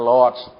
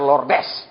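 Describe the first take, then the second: First: The name is said with one syllable. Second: The name is said with two syllables. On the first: The speaker calls it right. "bacanya Lords, bukan Lordes" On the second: The speaker calls it wrong. "Jangan dibaca Lordes"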